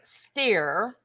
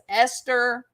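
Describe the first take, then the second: First: The name is said as Steer. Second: The name is said as Esther, American style. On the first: "She's calling her Steer" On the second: "I'm going to say it the American way"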